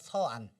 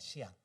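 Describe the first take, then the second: First: The name begins with the syllable 'Seo'. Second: The name begins with the syllable 'Shi'. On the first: This is the Korean reading of the written characters. "한자로 쓰면 서안" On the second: This is the Chinese pronunciation. "중국식 발음하면 시안"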